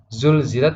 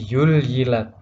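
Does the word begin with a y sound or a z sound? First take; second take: z sound; y sound. First: The word begins with a buzzing z sound. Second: The word begins with a gliding y sound. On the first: The speaker calls it right. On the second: The speaker calls it wrong.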